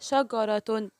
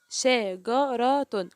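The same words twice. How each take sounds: First: Said in the usual way. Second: "شجرة" very slowly, each letter with its vowel apart; teacher sounding out "شجرة" piece by piece; syllable by syllable. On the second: Shown as a demonstration. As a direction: break "شجرة" into separate syllables, pausing between them. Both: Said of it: "كل حرف نطقته لوحده".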